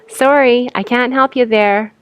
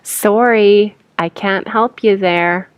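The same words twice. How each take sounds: First: It is said quickly, 'you' reduced to 'ya'. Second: It is said at normal speed, words separate.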